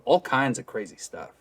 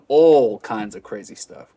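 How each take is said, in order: First: The emphasis falls on the word kinds. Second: The emphasis falls on the word all. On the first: The speaker calls it right. "shift the emphasis from all to kinds" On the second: The speaker calls it wrong. "instead of putting the emphasis on"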